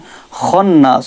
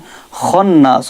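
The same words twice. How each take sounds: First: The opening kh sound is heavy and thick. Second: The opening kh sound is heavy and thick.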